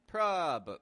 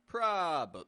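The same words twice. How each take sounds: Both takes have the same delivery.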